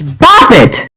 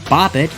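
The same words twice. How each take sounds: First: It is said loudly with excited energy. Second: It is said in a plain, flat way. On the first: "with the addition of an exclamation point" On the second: "instead of bop it"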